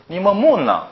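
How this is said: It is said in a Gyeongsang accent. "경상도 사람이 읽으면 다르죠"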